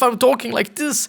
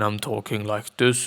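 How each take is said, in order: First: The voice is lively and energetic. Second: The voice is flat and low in energy. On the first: The speaker seems more energetic. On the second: The speaker seems less energetic.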